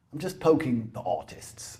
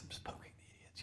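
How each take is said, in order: First: Hushed confiding aside; whispering. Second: Barely audible whisper. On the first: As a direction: drop to a whisper. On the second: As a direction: breathe it out almost silent. Repeated whisper, unvoiced. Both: Real, not acted.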